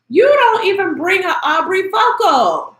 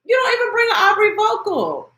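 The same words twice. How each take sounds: First: Said in the usual way. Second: Higher, near-shouted repeat of "You don't even bring an Aubrey vocal"; exasperated shout. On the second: Real, not acted. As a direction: shout it the second time, fed up. Repeating her point, louder the second time.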